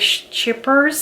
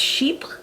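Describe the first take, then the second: First: The name is said with an Americanized pronunciation. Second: The name is said with a French pronunciation. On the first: "sales associates will say chippers ... Americanizing the name" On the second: "based on the French I know, um, I'm pretty sure it is pronounced chypre"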